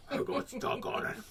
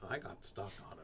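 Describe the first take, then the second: First: High, strained unvoiced croak; deranged repetition. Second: Low, soft deadpan loop; deranged repetition. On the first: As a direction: squeeze it out like someone unhinged. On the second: Pretend. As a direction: mutter it low like a stuck record. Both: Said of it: "You look deranged".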